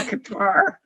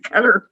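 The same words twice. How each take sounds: First: The word does not sound like 'cutter'. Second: The word sounds like 'cutter'. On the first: The speaker calls it wrong. "They don't say Qatar" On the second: The speaker calls it right. "they say Qatar"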